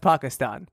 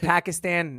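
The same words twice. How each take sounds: First: It is said with a more native-sounding pronunciation. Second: It is said with a plain English pronunciation. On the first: This is meant to sound more authentic. "Now it's Pakistan" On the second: This is the old, usual way of saying it. "I used to say Pakistan, not anymore"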